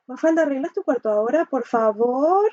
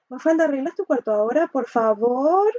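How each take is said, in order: First: It is said timidly, with some sarcasm. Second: It is said timidly, with some sarcasm.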